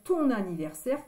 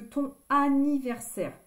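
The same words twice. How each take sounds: First: An n sound links the two words. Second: No n sound links the two words. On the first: The speaker calls it right. "C'est plus joli de dire ton anniversaire" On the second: The speaker calls it wrong. "que ton anniversaire"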